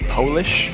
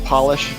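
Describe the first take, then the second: First: It is pronounced like the nationality. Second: It is pronounced like the cleaning word. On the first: The speaker calls it wrong. "that's a nationality" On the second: The speaker calls it right. "instead of polish"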